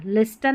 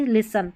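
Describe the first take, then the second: First: लिस्टन with the T sounded; lis-tan, T clearly said as the mistake; wrong pronunciation. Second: लिसन said li-san with no T; silent T. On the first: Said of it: "लिस्टन नहीं". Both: Shown as a demonstration.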